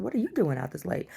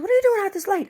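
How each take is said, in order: First: Said in the usual way. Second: Much higher and louder, fussing; mother the stranger on the corner; neighbor voice. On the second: Retold or imitated. Neighbor voiced, high put-on.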